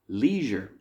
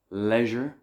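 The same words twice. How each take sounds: First: It is said the American way. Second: It is said the British and Irish way. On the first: "in some parts of the United States" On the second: "U K and Ireland"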